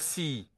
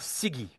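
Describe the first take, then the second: First: The middle g sound is dropped entirely. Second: The middle g sound is clearly pronounced. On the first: This is the Malinké form. "chez les Malinqués, il disparaît souvent. Ils vont dire si" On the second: This is the Bambara form. "quand je dis en Bambara Sigi"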